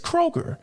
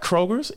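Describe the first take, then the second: First: The name ends without any s sound. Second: The name ends with an added s sound. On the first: The speaker calls it right. "it's Kroger" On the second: The speaker calls it wrong. "It's not Kroger's"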